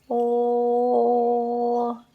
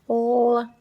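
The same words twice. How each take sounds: First: The vowel is held for longer. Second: The vowel is held briefly.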